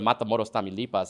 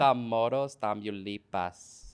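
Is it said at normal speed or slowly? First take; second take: normal; slowly. First: It is said at a normal, conversational pace. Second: It is said very slowly and deeply.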